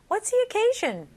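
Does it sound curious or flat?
curious. It sounds curious, with lively intonation.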